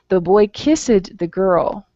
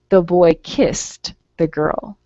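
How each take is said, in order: First: The ending of kissed is not pronounced clearly. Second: The ending of kissed is pronounced clearly. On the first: The speaker calls it wrong. "I didn't pronounce that word correctly" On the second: The speaker calls it right. "that word ends in an S sound, so I have to say kissed"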